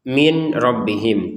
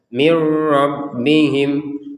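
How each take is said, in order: First: The n is pronounced separately before the r. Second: The n merges fully into the r. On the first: The speaker calls it wrong. "tulisannya memang min robbihim" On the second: The speaker calls it right. "Jadi langsung saja mir robbihim"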